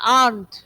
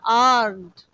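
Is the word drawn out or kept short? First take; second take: short; drawn out. First: The vowel is kept short and compact. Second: The vowel is stretched out long. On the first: The speaker calls it right. "इसको और confine करना है" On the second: The speaker calls it wrong. "ये तो अब आपने एकदम ही stretch कर दिया और बहुत ही स्पेस दे दिया"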